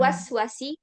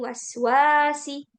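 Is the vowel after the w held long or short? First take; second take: short; long. First: The vowel after the w is short. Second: The vowel after the w is long. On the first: The speaker calls it wrong. "Dia bukan" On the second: The speaker calls it right. "wawunya panjang"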